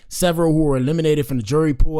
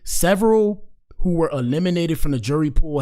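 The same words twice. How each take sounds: First: It is read at a normal pace. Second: It is read slowly.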